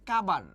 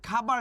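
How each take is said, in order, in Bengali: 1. প্রথম ব্যঞ্জনটি অল্পপ্রাণ, শ্বাস ছাড়া। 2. প্রথম ব্যঞ্জনটি মহাপ্রাণ, শ্বাস সহ। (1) "খাবারকে বলে কাবার" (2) "ধরেন খাবার লিখছি"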